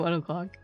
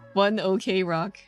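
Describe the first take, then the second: First: The words run together and sound like 'one o'clock'. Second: Each word is said separately, with 'OK' spelled out. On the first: "I just say one o'clock. That's how you say it, right?" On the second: "Or what was it? One OK Rock, I guess, is also their, their name"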